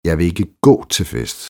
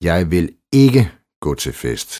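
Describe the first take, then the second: First: The stress falls on the word gå. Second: The stress falls on the word ikke. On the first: The speaker won't walk but could go another way. "Men vi kan jo cykle derhen" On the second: The speaker has already said no once. "Det har jeg jo allerede sagt en gang"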